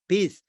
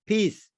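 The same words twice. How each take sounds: The two takes are said the same way.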